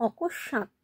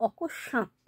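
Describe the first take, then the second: The two takes are said the same way.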